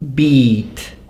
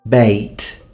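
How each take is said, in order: First: The vowel is pronounced as in the 1400s. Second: The vowel is pronounced as in the 1600s. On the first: "the way they would be pronounced in the fourteen hundreds" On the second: "sixteen hundreds"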